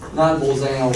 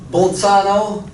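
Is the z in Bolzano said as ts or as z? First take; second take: z; ts. First: The z is said as a plain z sound. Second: The z is said as a ts sound. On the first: The speaker calls it wrong. "It just, it just sounds wrong" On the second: The speaker calls it right. "the Z sounds like, like a tsa"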